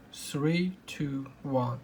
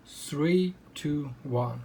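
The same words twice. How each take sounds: The two takes are said the same way.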